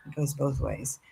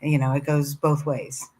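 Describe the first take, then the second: First: Breathy whispered echo; whispering. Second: Said in the usual way. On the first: Real, not acted. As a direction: whisper it back to yourself, moved. Host repeats phrase softly.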